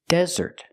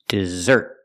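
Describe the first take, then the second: First: The stress is on the first syllable. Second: The stress is on the second syllable. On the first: "We put the stress on the first syllable" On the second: "Put the stress on the second syllable"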